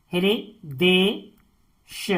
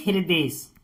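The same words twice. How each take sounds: First: "Hridesh" very slowly as हृ, दे, श with gaps; "Hridesh" spaced out for dictation; syllable by syllable. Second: Said in the usual way. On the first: Shown as a demonstration. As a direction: break "Hridesh" into three separate pieces. Teacher splits word into syllables.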